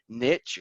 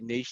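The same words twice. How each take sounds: First: The word is said the common American way. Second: The word is said a non-American way. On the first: "as a lot of Americans say" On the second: "So I say niche. That's how I got got brought up"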